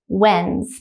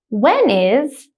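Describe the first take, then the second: First: The two words are joined into one syllable. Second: The two words are said fully and separately.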